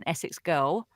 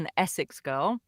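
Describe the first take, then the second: First: It is said in a broad Essex accent. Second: It is said in a standard, neutral British accent.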